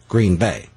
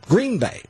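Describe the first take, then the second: First: It is said the way outsiders say it. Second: It is said the way locals say it. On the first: The speaker is from outside the area. "You can usually tell a native or non-native" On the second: The speaker is from the area. "You can usually tell a native or non-native"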